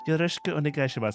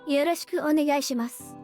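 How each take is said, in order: First: It is said in the speaker's own voice. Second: It is said imitating Akiha's voice.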